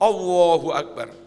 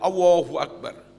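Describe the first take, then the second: First: The L sound in Allahu is missing. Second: The same.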